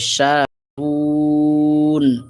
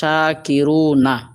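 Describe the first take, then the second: First: The word ends on the consonant n. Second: The word ends with a final vowel sound. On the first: The reader stops at the end of the verse. "যদি আমরা থামি তাহলে হবে শাকিরুন" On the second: The reading continues without stopping. "এখানে আছে শাকিরুনা"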